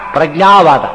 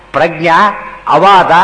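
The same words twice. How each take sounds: First: ಪ್ರಜ್ಞಾವಾದ run together as one word; one unbroken ಪ್ರಜ್ಞಾವಾದ; joined compound. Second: Prajna, then ಅವಾದ, slowly as separate words; Prajna held, a small gap, then ಅವಾದ; word split in two. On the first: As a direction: say ಪ್ರಜ್ಞಾವಾದ with no break inside. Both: Shown as a demonstration. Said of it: "ಆಚಾರ್ಯ ಬಿಡಿಸ್ತಾರೆ ಆ ರೀತಿಯಲ್ಲಿ".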